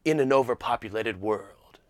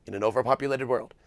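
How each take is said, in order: First: Deep dramatic trailer narrator; old movie trailer voice. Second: Said in the usual way. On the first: Retold or imitated. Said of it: "the old movie voice". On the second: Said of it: "but just".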